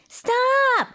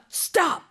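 First: It is said in a high-pitched voice. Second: It is said in a low-pitched voice.

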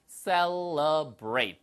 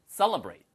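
First: The word is said slowly and carefully. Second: The word is said quickly.

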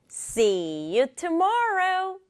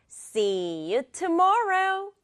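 The two takes are said the same way.

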